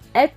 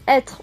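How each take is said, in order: First: The word ends without an 'r' sound. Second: The word ends with an 'r' sound. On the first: This is the regional form. "Le son re n'existe plus" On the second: This is the standard form. "Pour dire être"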